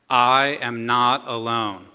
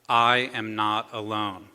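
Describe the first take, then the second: First: It is said louder. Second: It is said at a normal, softer volume.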